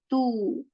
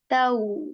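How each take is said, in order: First: The vowel is a plain 'u' sound. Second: The vowel glides from 'a' toward 'w'. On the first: The speaker calls it wrong. "This is not tu" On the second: The speaker calls it right. "So we say taw"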